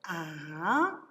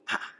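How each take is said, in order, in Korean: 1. 음이 중간에서 높은 곳까지 올라가요. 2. 음이 높은 데서 낮은 데로 뚝 떨어져요. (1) "산비탈에서 비스듬히 올라서 산 꼭대기까지 ... 이것이 이성이 된다" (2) "사성은 다이빙을 하듯이 뚝 떨어지는 소리"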